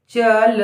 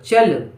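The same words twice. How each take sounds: First: Measured dictation; चल split into च and ल; syllable by syllable. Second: Said in the usual way. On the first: Shown as a demonstration. Dictating word sound by sound.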